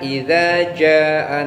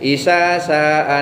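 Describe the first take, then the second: First: The words use 'dz' and 'j' sounds. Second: The words use 's' sounds in both places. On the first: "ada orang membaca" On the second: "itu dibacanya isa saa nasrullah"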